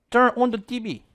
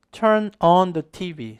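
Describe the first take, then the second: First: Higher-pitched imitation of Mexican-accented English; mock Mexican accent. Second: "on" opened to "ahn" in "Turn on the T V"; correct vowel. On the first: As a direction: put on a Mexican accent, closed O in "on". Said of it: "약간 멕시코 사람 영어 하는 거지". (멕시코 사람 영어 억양 흉내) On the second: Shown as a demonstration. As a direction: slowly model "Turn on the T V" with an open "ahn". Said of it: "발음은 on이 아니라". ("on"을 '안'처럼 열어 천천히 발음)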